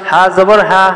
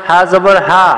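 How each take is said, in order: No difference in how they are said.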